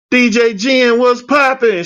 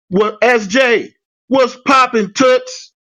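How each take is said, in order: First: High, upbeat hello; bouncy greeting. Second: High, slow, hyped-up greeting. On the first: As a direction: greet her like usual, full of energy. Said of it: "my normal self". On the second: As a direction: call it out like an excited hello. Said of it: "I would type". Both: Retold or imitated.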